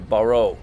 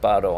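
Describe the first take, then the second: First: It is said with a local English-speaking accent. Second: It is said with a native Korean pronunciation. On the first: The speaker calls it wrong. "a lot of us in this part of the world say baro" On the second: The speaker calls it right. "but it's technically baro"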